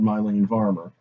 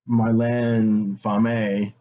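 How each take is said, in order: First: The name is pronounced with English sounds. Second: The name is pronounced with French sounds. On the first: This is how others have been heard saying it. "I've heard the singer [name] called" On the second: This is how it would be said in French. "surely in French she's"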